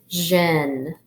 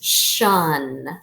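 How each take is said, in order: First: It begins with a voiced 'zh' sound. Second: It begins with a voiceless 'sh' sound. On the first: "So this can also say Jin" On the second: "the first one is shun"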